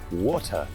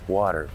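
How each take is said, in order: First: It is said in a British accent. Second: It is said in an American accent.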